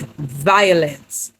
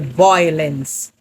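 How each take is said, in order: First: The first syllable sounds like 'vie'. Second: The first syllable sounds like 'voy'. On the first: The speaker calls it right. "It is violence" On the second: The speaker calls it wrong. "they say violence. That's incorrect"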